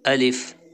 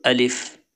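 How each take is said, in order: No difference in how they are said.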